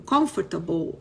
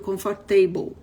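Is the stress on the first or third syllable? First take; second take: first; third. First: The stress is on the first syllable. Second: The stress is on the third syllable.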